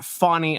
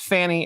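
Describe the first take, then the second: First: The first vowel sounds like in 'fawn'. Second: The first vowel sounds like in 'fan'. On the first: The speaker calls it wrong. "It's not Fawny. There is no W in that" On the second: The speaker calls it right. "it's Fanny"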